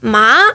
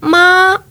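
First: The pitch rises from middle to high. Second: The pitch stays high and level. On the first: It means hemp or grass. "это трава" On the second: It means mother. "это будет «мама»"

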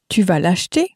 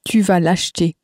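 First: The voice rises at the end. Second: The voice falls at the end.

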